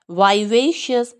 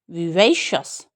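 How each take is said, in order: First: American accent, वाइवेशियस opening with vai; American vivacious. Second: विवेशियस with the stress on वे. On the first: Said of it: "Americans क्या बोलते हैं". (American उच्चारण) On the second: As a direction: hit वे in विवेशियस. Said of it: "वही पे stress है". (वे पर ज़ोर) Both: Shown as a demonstration.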